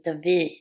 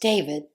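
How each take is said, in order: First: The name is said the traditional Hebrew way. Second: The name is said the modern everyday way. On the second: This is how the name is said today. "nowadays we do pronounce the name of David as David"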